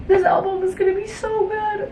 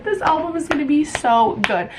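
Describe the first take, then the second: First: Excited squeal. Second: Said in the usual way. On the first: Real, not acted. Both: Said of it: "repeated line".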